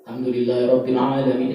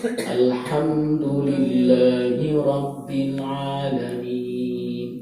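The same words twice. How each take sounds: First: The phrase is recited quickly. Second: The phrase is recited slowly and deliberately. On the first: "Ada yang hadar, lebih cepat lagi" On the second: "Ada tartil"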